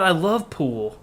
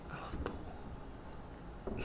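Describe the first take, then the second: First: Said in the usual way. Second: Slow breathy whisper of I love pool. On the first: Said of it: "repeats the line as a whisper". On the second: Shown as a demonstration. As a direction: whisper love drawn out slowly. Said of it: "whispered repeat of own line".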